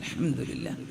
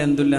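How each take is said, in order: First: It is said slowly with every syllable clear. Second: It is rushed and slurred into a short blur. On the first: The praise is said with full attention and feeling. The speaker calls it right. "മനസ്സറിഞ്ഞ് ആസ്വദിച്ച്" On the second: The praise is said without thinking about it. The speaker calls it wrong. "Speed പറഞ്ഞിട്ട്"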